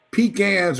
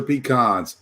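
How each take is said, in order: First: "Pecans" said pee-KANZ, A as in cat; "Pecans" rhyming its end with cans; pee-CAN pronunciation. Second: "pecans" said pee-KAHNZ, A as in father; "pecans" ending in a long KAHNZ; pee-KAHN pronunciation. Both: Shown as a demonstration. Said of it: "I don't care what you call 'em".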